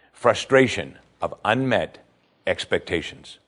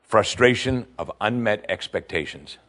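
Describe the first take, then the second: First: Slow, spaced-out repeat, fading at the end; slow emphasis. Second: Said in the usual way. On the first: Shown as a demonstration. Preacher repeating the lesson slowly for weight. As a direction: dwell on each word.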